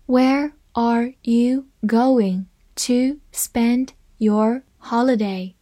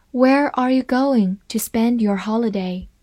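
First: Slow and clear, every word spaced out; slow reading. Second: Said in the usual way. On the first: Shown as a demonstration. Teacher reads the question slowly to students, slow and clear. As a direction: read it slowly so students can follow. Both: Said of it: "好，慢慢来读".

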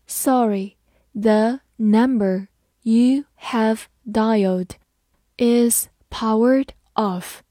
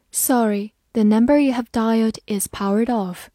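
First: Slow, word by word; slow reading. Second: Said in the usual way. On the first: Shown as a demonstration. Teacher reading slowly for students to follow. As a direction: read the phone message slowly. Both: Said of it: "好，慢慢来读。".

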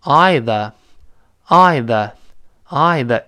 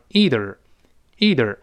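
First: Either with the aɪ vowel, British style, very slow. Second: Either with ee vowel and r-coloured end, General American. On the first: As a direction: draw out either as a British speaker, eye-ther. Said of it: "英联邦国家的人". (英式发音的either) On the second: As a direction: say ee-ther, American style. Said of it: "多数美国人把它读成". (美式发音的either) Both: Shown as a demonstration.

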